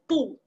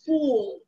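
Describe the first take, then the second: First: Only the vowel is heard, with no final L. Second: The vowel runs on into a clear final L. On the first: The speaker calls it wrong. "We end up only doing the O sound" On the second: The speaker calls it right. "the L is just continuing the sound of the two O's"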